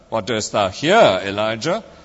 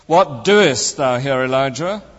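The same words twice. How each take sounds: First: The stress is on the word here. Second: The stress is on the word doest. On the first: "emphasizing each word in turn" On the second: "emphasizing each word in turn"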